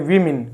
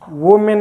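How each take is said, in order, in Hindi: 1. पहला अक्षर 'wi' जैसा सुनाई देता है। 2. पहला अक्षर 'woe' जैसा सुनाई देता है। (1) "उसको पढ़ेंगे वीमिन" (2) "वो मेन नहीं होता है"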